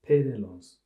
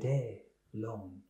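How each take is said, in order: First: It is said with an English accent. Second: It is said with a French accent. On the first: "say it in your voice, just without the French accent" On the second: "That's still with an accent"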